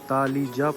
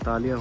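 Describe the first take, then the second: First: The middle consonant is a J sound. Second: The middle consonant is a Y sound. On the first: This is how the spelling would be read. "ऐसे तो ये तालीजा पढ़ा जाएगा" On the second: This is how local people say it. "इसे तालिया होटल यहाँ लोग कहते हैं"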